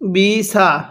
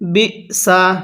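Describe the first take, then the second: First: The hamza is not clearly pronounced between syllables. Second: The hamza is clearly pronounced between syllables. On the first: The speaker calls it wrong. "মনে করি আমরা হামজা উচ্চারণ হয়ে গেছে, হামজা কিন্তু এরকম ভাবে উচ্চারণ হবে না।" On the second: The speaker calls it right. "কিভাবে পড়তে হবে?"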